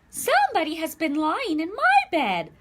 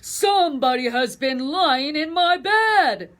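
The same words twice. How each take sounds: First: It is said in a middle-sized voice. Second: It is said in a big, deep voice.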